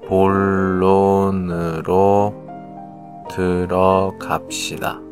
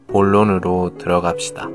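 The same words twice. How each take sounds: First: It is said slowly. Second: It is said quickly.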